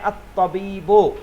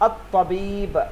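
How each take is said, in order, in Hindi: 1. शब्द अंतिम स्वर से खत्म होता है। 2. शब्द एक मौन व्यंजन पर खत्म होता है। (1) "हम लोग इसको प्रोनाउंस कर रहे हैं अत्तबीबो" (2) "लास्ट में साकिन करते हैं हम"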